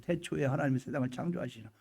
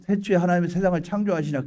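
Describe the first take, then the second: First: Much softer, reflective recitation; hushed musing. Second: Said in the usual way. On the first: Acted. Believer pondering the creation verse alone, hushed awe. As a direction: murmur the verse to yourself.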